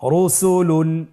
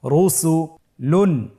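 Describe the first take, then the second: First: Said in the usual way. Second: Drawn out, slow and deliberate; slow syllable reading. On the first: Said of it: "দ্রুত করে পড়ব". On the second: Shown as a demonstration. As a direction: stretch each syllable for learners. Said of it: "আপনারা আমার সাথে বলুন".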